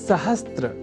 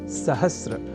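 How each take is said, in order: First: The cluster is s, t, r, with t. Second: The cluster is s plus r, without t. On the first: The speaker calls it wrong. "जिसे सहस्त्र इस रूप में न केवल लिखने की ही बल्कि बोलने की भी प्रवृत्ति या कुप्रवृत्ति बढ़ गई है" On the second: The speaker calls it right. "और वह शब्द है सहस्र"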